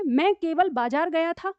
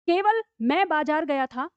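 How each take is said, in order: First: केवल बाजार stressed, sentence said slowly. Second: केवल stressed, sentence said slowly. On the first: Teacher stressing केवल बाजार to show only the market. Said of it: "मैं कहाँ गया था? सिर्फ बाजार". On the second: Teacher stressing केवल to show only I went. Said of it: "ये वाक्य हमको क्या बता रहा है". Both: Shown as a demonstration.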